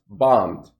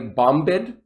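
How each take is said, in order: First: No B sound is heard after the M. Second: A B sound is heard after the M. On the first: The speaker calls it right. "notice the B is silent. I just say bombed" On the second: The speaker calls it wrong. "I don't say bombed"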